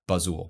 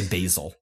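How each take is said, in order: First: The name is pronounced as Bazul. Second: The name is pronounced like the herb basil. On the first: It is how the person wants to be called. The speaker calls it right. "wants to be called Bazul" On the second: It is the usual reading of the spelling. The speaker calls it wrong. "having people say Basil, because it's B-A-S-I-L"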